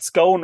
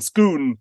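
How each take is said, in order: First: Scone rhyming with stone; Scone as it is spelt, long o; usual pronunciation. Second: Scone said as "Skoon"; Scone with a long oo vowel, the Scottish way; Scottish pronunciation. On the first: The usual spelling pronunciation, then contrasted. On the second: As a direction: say Scone to rhyme with moon. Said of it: "as it's pronounced in Scotland". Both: Shown as a demonstration.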